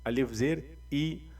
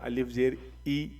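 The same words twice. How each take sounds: Both takes have the same delivery.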